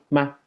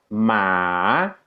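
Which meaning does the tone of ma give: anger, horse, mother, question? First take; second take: question; horse. First: It is said with the tone marking questions. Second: It is said with the tone meaning horse. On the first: It marks a question. "esto se usa para hacer preguntas" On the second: It means horse. "esto quiere decir caballo"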